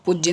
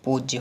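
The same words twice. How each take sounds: First: पूज्य high with short "u"; wrong pronunciation. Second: पूज्य with long "oo"; correct pronunciation. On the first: Teacher rejecting an error, पूज्य with short high "u". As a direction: say a quick "puj-ya" for पूज्य. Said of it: "पूज्य नहीं". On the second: Teacher giving the right word, पूज्य as "pooj-ya". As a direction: stretch the first vowel of पूज्य. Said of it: "पूज्य हो जाएगा". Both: Shown as a demonstration.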